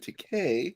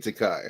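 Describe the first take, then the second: First: The last syllable rhymes with 'gay'. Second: The last syllable does not rhyme with 'gay'. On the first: This is the newer form of the name. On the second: This is the older form of the name. "he used to say Takai"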